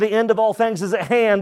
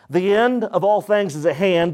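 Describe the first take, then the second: First: It is read at normal speed. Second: It is read slowly.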